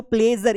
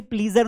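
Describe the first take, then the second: First: "प्लेजर" with an "e" vowel; play-zer for "प्लेजर"; correct pronunciation demo. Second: "प्लीजर" with a long ee; plee-zer for "प्लीजर"; wrong pronunciation demo. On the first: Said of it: "sound ए निकलता है". ("प्लेजर" में "ए" की आवाज़) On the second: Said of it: "इसे प्लीजर नहीं पढ़ना है". ("प्लीजर" में "ई" की आवाज़) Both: Shown as a demonstration.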